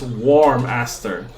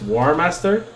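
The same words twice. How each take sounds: First: "Warm Aster" slowly, M closing the first word; split as warm-aster. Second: Said in the usual way. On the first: Shown as a demonstration. Streamer showing own version of friend's name, "Warm Aster" split after the M. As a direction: say "Warm Aster" as warm plus aster, the flower. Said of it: "I pronounce it as Warm Aster". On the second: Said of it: "but I pronounce it as".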